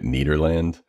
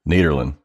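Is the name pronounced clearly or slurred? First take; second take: clearly; slurred. First: The name is pronounced with each syllable clear. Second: The name is pronounced loosely with syllables run together. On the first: "we made it Nederland" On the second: "we don't really enunciate. So it's just like Nederland"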